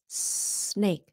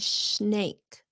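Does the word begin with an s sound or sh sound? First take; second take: s; sh. First: The word begins with a hissing s sound. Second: The word begins with a hushing sh sound. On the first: The speaker calls it right. "that's the way you make an S sound" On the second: The speaker calls it wrong. "chứ không có phải là snake"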